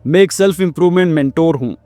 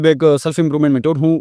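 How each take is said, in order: First: It is said at a calm, even pace. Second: It is said in a rushed, hurried way.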